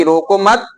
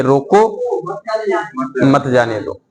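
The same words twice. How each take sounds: First: 'रोको मत' said unbroken, rising at the end; 'रोको मत' as one phrase. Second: Low-pitched 'रोको', a long pause, then 'मत जाने दो'; pause after 'रोको'. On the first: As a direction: run 'रोको मत' together with no pause, voice lifting on 'मत'. समझाना कि मेहमान को न रोकें. ('रोको मत' बिना रुके एक साथ, 'मत' पर चढ़ता सुर) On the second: शानदार मेहमान को रोकने का उदाहरण. ('रोको' के बाद लंबा विराम, फिर नीचे सुर में 'मत जाने दो') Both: Shown as a demonstration.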